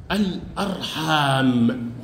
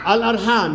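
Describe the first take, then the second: First: Low, very slow, stretched الأرحام; drawn-out model answer. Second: Said in the usual way. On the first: Shown as a demonstration. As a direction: say الأرحام slowly, dragging out the long aa. Teacher models the plural answer. (الأرحام ببطء مع مد الألف)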